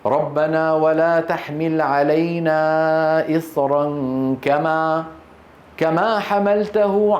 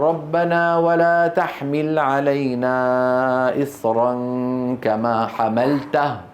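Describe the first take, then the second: First: The reader stops after kama, then repeats it. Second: The reader stops right after the word hamaltahu. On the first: The meaning of the verse is kept intact. The speaker calls it right. "قول كما واسكت" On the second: The stop breaks the meaning of the verse. The speaker calls it wrong. "بعض إخواننا يقولوا"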